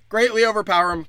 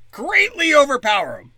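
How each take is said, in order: First: Said in the usual way. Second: High, loud cartoon-villain relish on greatly; greatly hammed up, much higher and louder; mock villain gloat. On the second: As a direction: sneer it out like a gleeful overlord. Mock villain boasting plan.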